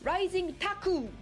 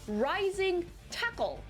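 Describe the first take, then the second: First: The last word ends in a vowel, without L. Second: The last word ends with a clear L sound. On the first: "in Japanese, we don't put L sound at the end of the vocabulary. We have to say rising taku" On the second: "He's actually trying to say rising tackle"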